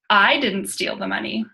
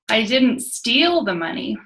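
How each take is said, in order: First: The stress is on the word I. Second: The stress is on the word steal.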